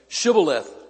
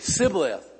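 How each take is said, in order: First: The word begins with a 'sh' sound. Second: The word begins with an 's' sound. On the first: The speaker is from Gilead. The speaker calls it right. "wouldn't allow them to say Shibboleth" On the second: The speaker is an Ephraimite. The speaker calls it wrong. "They would say Sibboleth"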